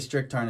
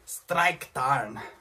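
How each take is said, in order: First: It is said with an English-style pronunciation. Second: It is said with a German-style pronunciation. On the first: "I say Stricktarn" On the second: "as the Germans, they probably pronounce it like Streiktarn"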